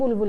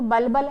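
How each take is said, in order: First: The word is said with 'u' vowels. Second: The word is said with 'a' vowels. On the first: "हम उसे पढ़ेंगे बुलबुल ही" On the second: "वैसे तो बलबल है वो"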